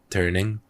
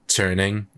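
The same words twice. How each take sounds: First: The T is plain, without a puff of air. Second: The T is aspirated with a puff of air. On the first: "instead of turning" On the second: "doing like turning"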